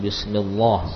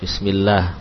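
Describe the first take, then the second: First: The L sound is heavy and thick. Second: The L sound is light and thin. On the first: The speaker calls it wrong. "tidak ada yang baca menebal misalkan" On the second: The speaker calls it right. "Ini semua kita baca tipis ya"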